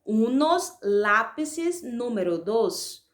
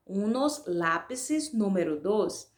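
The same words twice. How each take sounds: First: Unos lápices número dos said slowly and carefully, word by word; slow dictation. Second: Said in the usual way. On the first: Shown as a demonstration. Teacher reading the answer for students, slow and clear. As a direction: dictate the phrase slowly so pupils can write it. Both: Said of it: "Então, ficaria".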